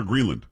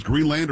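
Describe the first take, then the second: First: Greenland ending in a weak "lund"; reduced ending. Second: Greenland with a clear "land" at the end; Greenland, second syllable rhyming with hand; full LAND ending. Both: Shown as a demonstration. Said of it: "is Greenland or Greenland".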